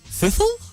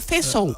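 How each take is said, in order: First: It is said with a French accent. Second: It is said with an English accent.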